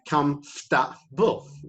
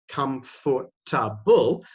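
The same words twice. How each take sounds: First: The middle syllables are squeezed into one short sound. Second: The middle syllables are said fully and separately. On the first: The speaker calls it right. "For and ta become fta" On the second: The speaker calls it wrong. "we don't say comfortable"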